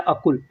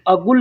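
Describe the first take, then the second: First: The middle consonant is a voiceless k sound. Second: The middle consonant is a voiced g sound. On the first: This is the written form, as read in the Quran. "अरबी में ऐसे लिखा जाता है कुल" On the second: This is how people say it in everyday speech. "लेकिन लोग बोलते हैं गुल"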